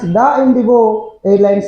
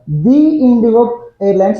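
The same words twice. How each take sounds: First: 'The' is said with a short vowel, like 'thuh'. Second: 'The' is said with a long vowel, like 'thee'. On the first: The speaker calls it wrong. "you should not pronounce" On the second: The speaker calls it right. "you need to pronounce"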